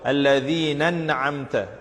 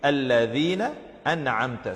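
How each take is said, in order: First: The two words run together as one word. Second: The two words are kept distinct and separate. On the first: The speaker calls it wrong. "they tend to join the two words unnecessarily when reading" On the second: The speaker calls it right. "The right way to read it"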